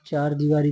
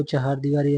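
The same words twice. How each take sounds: First: चार दीवारी, no h inside the first word; uncorrected form चार दीवारी. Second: चहार दीवारी, clear h and long aa; correct form चहार दीवारी. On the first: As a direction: say चार दीवारी with one-beat chaar. (चार दीवारी, 'चार' एक ही अक्षर में) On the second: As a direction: say चहार दीवारी with two-beat cha-haar. (चहार दीवारी, 'हा' साफ़ बोलकर) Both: Shown as a demonstration. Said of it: "ऐसे लिखा जाएगा".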